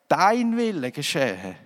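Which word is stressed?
dein. The stress is on dein.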